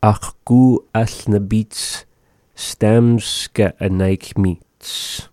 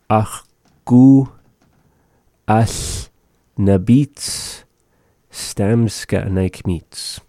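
First: Slow. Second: "Ach, ku as na bits stamska naik mit" with pauses between words. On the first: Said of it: "repeating phrase slowly". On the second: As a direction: break the phrase apart slowly for learners. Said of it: "word by word teaching". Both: Shown as a demonstration.

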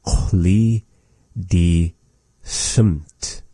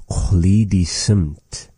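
First: Chloe, die, Sumt, each set apart by a pause; word by word. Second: Said in the usual way. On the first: Shown as a demonstration. Teacher breaking the phrase up for learners, "Chloe die Sumt" word by word. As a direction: say "Chloe die Sumt" slowly in separate pieces.

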